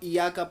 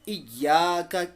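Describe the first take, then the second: First: The y sound is short, single. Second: The y sound is held long, doubled. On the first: The speaker calls it wrong. "अगर इया का पढ़ा तो यहाँ पर इंसान अल्लाह ताला बचाए गुनाह में मुब्तला हो जाता है" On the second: The speaker calls it right. "इय्याका के जगह"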